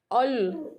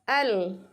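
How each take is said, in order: First: The vowel is dark and rounded. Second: The vowel is thin with spread lips. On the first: The speaker calls it wrong. "nggak boleh teman-teman bacanya ol" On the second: The speaker calls it right. "Senyumkan, bibirnya senyumkan"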